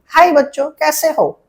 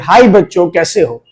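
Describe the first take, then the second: First: It is said in a higher, woman's voice. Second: It is said in his own lower voice.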